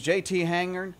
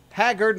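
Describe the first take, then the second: First: Hangard, said with an n before the g; Hangard, the wrong name with the n; mispronounced Hangard. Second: Haggard, said with a hard double g and no n; corrected name Haggard. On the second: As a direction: Haggard stressed, a bit louder. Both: Shown as a demonstration. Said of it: "not Hangard".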